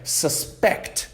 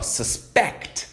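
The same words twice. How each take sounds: First: The stress is on the first syllable. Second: The stress is on the second syllable. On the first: It is a noun meaning the suspected person. "se a gente dá ênfase no começo dessa palavra" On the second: It is a verb meaning to suspect. "colocando ênfase no final dessa palavra"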